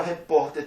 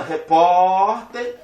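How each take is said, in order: First: Said in the usual way. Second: "repórter" with POR loud and held very long; sílaba tônica alongada. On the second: Shown as a demonstration. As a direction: stretch the middle syllable of "repórter". Teacher demonstrates the stressed syllable. ("repórter" com o POR forte e esticado)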